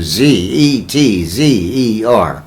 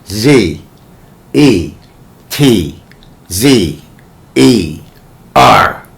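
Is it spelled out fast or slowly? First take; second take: fast; slowly. First: The letters are spelled at normal speed. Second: The letters are spelled out slowly.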